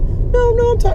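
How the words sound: The voice is high-pitched like a child's. The speaker calls it right. "So much more high pitch"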